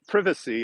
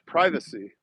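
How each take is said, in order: First: It is said the English way. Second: It is said the American way. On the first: "it's not privacy" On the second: "it's privacy"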